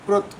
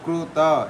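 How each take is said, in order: First: It ends on a short bare t sound. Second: It ends with a full vowel after t. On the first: The speaker calls it right. "अर्ध मात्रा मतलब कि केवल कृत इतना बोलना है" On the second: The speaker calls it wrong. "कृत ऐसा पूरा नहीं बोलना होता है"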